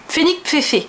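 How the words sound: The name is pronounced the French way. "si je le prononçais en français, ça ferait"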